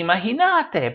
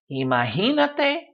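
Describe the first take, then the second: First: Imagínate wrongly stressed as i-ma-gi-NA-te. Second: Imagínate stressed as i-ma-GI-na-te. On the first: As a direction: shift the weight to NA in imagínate. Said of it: "should be imagínate". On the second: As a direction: hit the GI in imagínate. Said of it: "should be imagínate, but it's not". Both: Shown as a demonstration.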